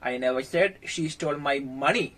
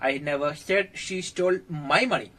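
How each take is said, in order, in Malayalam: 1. money എന്ന വാക്കിനാണ് പ്രധാന ഊന്നൽ. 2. my എന്ന വാക്കിനാണ് പ്രധാന ഊന്നൽ. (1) "വേറെ എന്തൊക്കെയോ അവൾ മോഷ്ടിച്ചിട്ടുണ്ട്" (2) "എന്റെ പൈസ മോഷ്ടിച്ചെന്ന് ഞാൻ പറഞ്ഞിട്ടില്ല, പക്ഷെ ആരുടെയോ പൈസ മോഷ്ടിച്ചിട്ടുണ്ട്"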